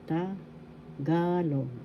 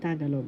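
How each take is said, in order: First: The stress is on the second syllable. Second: The stress is not on the second syllable. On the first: The speaker calls it right. "the accent is in the second syllable ga" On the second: The speaker calls it wrong. "I hear some who are saying Tagalog. No, that's not the way to say it"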